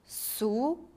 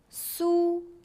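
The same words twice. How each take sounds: First: It is said with a rising pitch. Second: It is said with a high level pitch.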